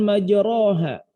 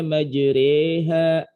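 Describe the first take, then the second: First: The vowel after r is a plain open a. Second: The vowel after r leans toward e. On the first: "tulisannya kan majroha" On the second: "dibacanya majreha gitu, rada miring-miring"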